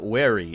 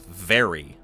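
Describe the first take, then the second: First: The word starts with a W sound. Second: The word starts with a V sound. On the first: The speaker calls it wrong. "they always pronounce it as a W" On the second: The speaker calls it right. "it's very"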